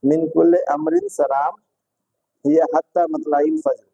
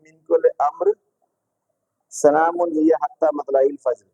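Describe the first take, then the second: First: The pause comes after the word salam. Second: The pause comes after the word amr. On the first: "सही पढ़ा मैंने?" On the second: "दूसरे तरीके से"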